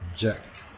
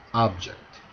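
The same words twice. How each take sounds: First: The stress is on the second syllable. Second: The stress is on the first syllable. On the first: It is a verb. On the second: It is a noun.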